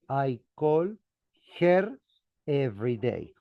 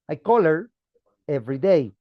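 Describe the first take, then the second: First: 'Her' is said slowly and fully, with its h. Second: 'Her' is reduced and linked quickly to 'call'. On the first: "with the emphasis slowly, you pronounce her" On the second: "But speaking normally, you say"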